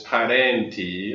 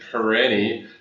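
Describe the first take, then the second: First: The name is said with an Italian pronunciation. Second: The name is said with a North American pronunciation. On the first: "the Italian pronunciation is" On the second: "North Americans will usually pronounce it"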